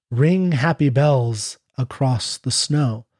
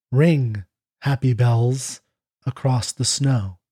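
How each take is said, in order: No difference in how they are said.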